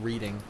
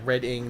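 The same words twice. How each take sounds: First: The first vowel sounds like in reed. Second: The first vowel sounds like in red. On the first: The speaker calls it wrong. "not reading" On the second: The speaker calls it right.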